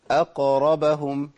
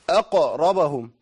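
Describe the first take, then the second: First: أقربهم read slowly with a light, easy qaf bounce; the right reading, light and easy; correct easy qalqala. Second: أقربهم with the qaf bounced far too hard, slow; mock wrong overdone qalqala. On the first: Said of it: "والله القرآن جميل". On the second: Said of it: "دي مبالغة في القلقلة". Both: Shown as a demonstration.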